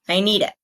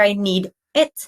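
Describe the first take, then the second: First: The d sound runs straight into it. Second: The words need and it are kept separate. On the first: The speaker calls it right. "but I need it" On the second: The speaker calls it wrong. "we don't hear I need it"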